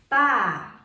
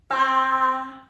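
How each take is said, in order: First: The pitch drops sharply from high to low. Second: The pitch stays level and high. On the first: "the fourth one is falling tones" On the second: "The first one is the flat tone"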